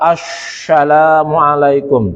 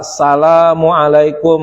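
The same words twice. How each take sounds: First: The s sound is pronounced as sh. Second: The opening syllable is left out. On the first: A letter is distorted but nothing is removed. "kita baca sin tapi dibaca shin ... shinnya dibesarkan" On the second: Letters are removed from the greeting. "ngurangin salah ... kurang tiga itu namanya alif lam sin"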